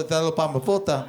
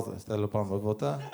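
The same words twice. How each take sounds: First: "Te lo pa me volta" said evenly, falling at the end; plain Greek phrase. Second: "Te lo pa me volta" dropped low and soft, rising on "volta"; smooth-talking pickup line.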